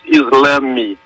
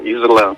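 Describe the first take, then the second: First: The word ends with an added 'meh' syllable. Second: The word ends with a nasal vowel. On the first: This is the form used in Portugal. "O português de Portugal diz islame" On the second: This is the form used in Brazil. "mas nós dizemos Islã"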